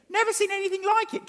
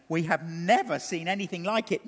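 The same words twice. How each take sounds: First: Pitched high in astonishment on NEVER; wide-eyed repeat, NEVER soaring high; amazed. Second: Said in the usual way. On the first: Acted. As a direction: lift it up like you can't believe it. Preacher repeats the quote in amazement.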